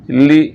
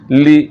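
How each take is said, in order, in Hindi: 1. स्वर साफ़ 'ee' की आवाज़ है। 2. स्वर साफ़ 'ee' की आवाज़ है।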